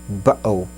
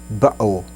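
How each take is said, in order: Both takes have the same delivery.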